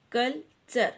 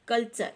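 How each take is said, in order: First: कल्चर broken in two, कल, pause, चर; split into syllables. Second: Said in the usual way. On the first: Shown as a demonstration. Teacher showing children the two syllables of कल्चर, syllable by syllable. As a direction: say कल्चर as two separate beats. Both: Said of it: "तो ये two syllable".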